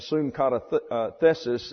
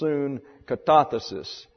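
First: The stress falls on the next-to-last syllable. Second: The stress falls before the next-to-last syllable. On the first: The speaker calls it wrong. "we have a tendency to want to go to the second syllable back from the end" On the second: The speaker calls it right. "But it really is soon katathesis, which breaks your tongue"

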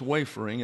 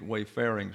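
First: The stress is on the first syllable. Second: The stress is on the second syllable. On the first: The speaker calls it right. "all seven have the accent on the first syllable" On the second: The speaker calls it wrong. "always wants to put it in the second syllable and then add the word, the letter I"

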